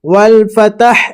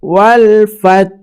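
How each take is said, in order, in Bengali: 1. শেষ 'ত'-এর পরে একটি অতিরিক্ত স্বরধ্বনি যোগ করা হয়। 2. শব্দটি 'ত'-এর উপর শেষ হয়, তাতে কোনো স্বরধ্বনি থাকে না। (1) "এইভাবে আমরা অনেকজন পড়ি, কিন্তু এখানে তায়ের উপরে যাবার নেই যে আপনি ফাতাহ পড়বেন।" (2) "এইভাবে আপনাদেরকে আপনাকে পড়িতে হবে।"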